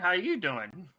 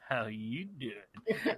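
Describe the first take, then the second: First: It is said in his normal voice. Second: It is said in a Joey impression.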